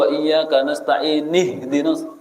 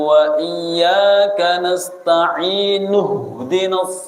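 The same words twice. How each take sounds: First: Nasta'in ends with a 'ni' sound. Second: Nasta'in ends with a 'nu' sound. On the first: The speaker calls it wrong. "tidak boleh, tidak sah. Karena itu harusnya dibaca nuh" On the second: The speaker calls it right. "Harus seperti itu. Nuh, bukan nih"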